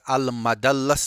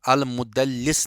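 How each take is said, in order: First: The vowel after the m is a. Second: The vowel after the doubled l is i. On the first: "अल मदल्लस नहीं पढ़ेंगे" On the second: "अल मुदल्लिस नहीं पढ़ेंगे"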